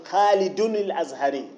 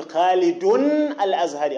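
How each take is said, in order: First: "خالد الأزهري" flowing as "Khaliduni-l-Azhari"; linked tanween. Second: "خالد" ending in a held bare n, break, "al-Azhari"; unlinked tanween. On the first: Teacher giving the correct form, "خالد الأزهري" linked through a vowelled n. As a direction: put a short vowel on the n of "خالد", straight into "الأزهري". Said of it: "أقول". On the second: Teacher showing what not to say, "خالد. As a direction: stop on "Khalidunnn", then restart "الأزهري" with al. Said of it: "لا أقول". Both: Shown as a demonstration.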